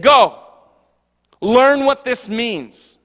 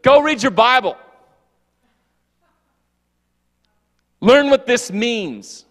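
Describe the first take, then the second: First: Stern command. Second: Louder, slow stern scolding; mock yelling. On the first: Pretend. Jesus scolding scholars. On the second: Preacher imagining himself telling off his pastor, loud and slow. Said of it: "me yelling at pastor".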